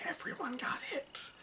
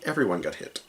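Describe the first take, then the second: First: Hushed whisper for emphasis; dramatic whisper. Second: Said in the usual way. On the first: Real, not acted. Game master reveals the rage hit everyone, dramatic whisper. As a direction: repeat it in a stunned whisper.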